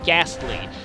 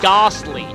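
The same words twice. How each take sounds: First: It is said with an American short 'a' vowel. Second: It is said with an Australian broad 'ah' vowel. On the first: "not ghastly" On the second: "I pronounce that as ghastly"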